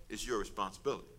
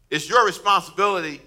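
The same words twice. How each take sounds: First: Low, soft and understated; understated quote. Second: Higher and louder, pressing the point; emphatic preaching. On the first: Retold or imitated. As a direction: say it quietly, letting the voice drop. Quotes Jesus, then repeats for emphasis. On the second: Real, not acted. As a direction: drive it home to the congregation. Preacher repeats the quote with force.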